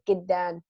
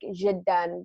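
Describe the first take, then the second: First: It begins with a hard g sound. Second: It begins with a soft j sound. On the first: This is how Egyptian speakers say it. "they use g, so they'll be like giddan" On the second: This is how the speaker's own dialect says it. "Like we, for instance, if there's a word like jiddan"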